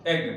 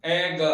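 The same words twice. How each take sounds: First: Said in the usual way. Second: "एग" drawn apart into vowel and g; sounded out. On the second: Shown as a demonstration. Teacher has learners hear the first sound, "एग" broken up. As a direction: sound out "एग" in two parts. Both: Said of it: "एग बोल के देखिए".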